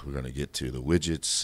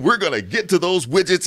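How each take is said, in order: First: It is said in a dull, flat voice. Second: It is said in a lively, engaging voice.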